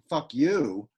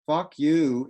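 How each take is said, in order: First: The stress is on the second word. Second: Both words are stressed equally. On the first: "an I am" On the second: "is a spondy"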